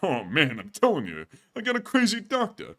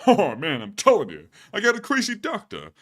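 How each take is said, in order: First: Steady raspy comic complaint, no crack; Rodney Dangerfield. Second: Rodney with a voice crack. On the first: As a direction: clean Dangerfield-style whine. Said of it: "All right, take two". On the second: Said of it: "that was a voice crack in the middle of doing a Rodney". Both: Acted.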